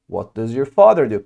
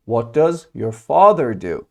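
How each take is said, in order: First: Said in the usual way. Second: Slow, evenly separated words for learners; slow model question. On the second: Shown as a demonstration. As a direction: model the question slowly and clearly. Teacher models question slowly first. (آهسته و شمرده)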